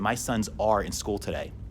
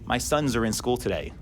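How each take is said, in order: First: Sons and are are two full, separate words. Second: Sons and are blend into one short syllable.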